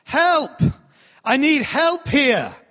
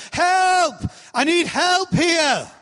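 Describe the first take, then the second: First: Raised, higher call for help; a trainee's first go at yelling for help; practice yell for help. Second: Much higher, drawn-out yell for help; the learned, full-voiced cry for help. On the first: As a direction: demo a first, tentative cry for help. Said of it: "they had to all practice yelling". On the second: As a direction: belt out the call like you mean it. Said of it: "until they'd learned". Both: Shown as a demonstration.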